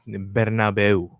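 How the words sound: It is pronounced with Spanish-style sounds. The speaker calls it right. "in Spanish the correct pronunciation is Bernabeu"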